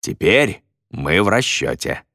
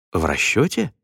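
First: Said in the usual way. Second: "В расчёте" as a rising question; "расчёте" swung upward, unsure of having heard right; questioning echo. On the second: A narrator's reading. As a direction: echo "В расчёте" in disbelief, lifting the pitch sharply. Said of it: "переспросил он".

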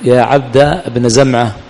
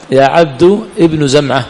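First: يا عبد بن زمعة read slowly with fatha, 'ʿabda ibna'; فتح الجزئين; fatha on both parts. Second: يا عبد ابن زمعة read slowly with damma, 'ibnu'; ضم على عبد وابن. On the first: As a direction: say 'yā ʿabda bna zamʿa', both parts open. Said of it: "نبني على فتح الجزئين". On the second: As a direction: say 'yā ʿabdu ibnu zamʿa' with u endings. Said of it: "مبني على السكون". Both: Shown as a demonstration.

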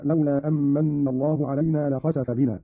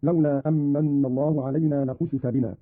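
First: Said in the usual way. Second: U after kh, i after s in "لخسف"; passive verb vowels. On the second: Shown as a demonstration. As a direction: say "لخسف" as la-khusifa. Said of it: "وكسر السين على البناء للمجهول". ("لخسف" بضم الخاء وكسر السين)

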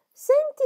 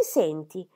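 First: Sharp rebuke. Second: Said in the usual way. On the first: Acted. Scolding Molly sharply.

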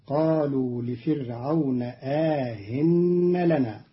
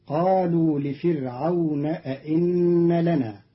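First: أئن softened to aahin with a lengthened a; Qalun's reading. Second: أئن with two full hamzas; standard reading. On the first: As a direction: soften the second hamza of أئن between hamza and ya. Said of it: "بتسهيل الهمزة الثانية بين بين مع الإدخال". (تسهيل الهمزة الثانية مع الإدخال) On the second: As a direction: say أئن with both glottal stops. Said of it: "قرأ قالون كلمة". (أئن بتحقيق الهمزتين) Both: Shown as a demonstration.

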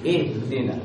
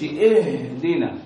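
First: اهدنا with a light but audible h, unforced; natural clear haa. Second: اهدنا with a laboured, drawn-out h; overdone haa. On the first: Teacher giving the correct model, natural clear haa. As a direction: let the h of اهدنا breathe briefly. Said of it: "لا، دي خطأ". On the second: Teacher mimicking students' mistake, overdone haa. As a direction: exaggerate the h of اهدنا, holding it too long. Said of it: "تتعسف وتتكلف في إظهار الهاء". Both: Shown as a demonstration.

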